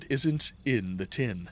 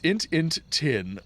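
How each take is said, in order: First: Each word is said fully and separately. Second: The words are squeezed into a few short syllables. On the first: "or it isn't in the tin" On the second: "it's int int tin"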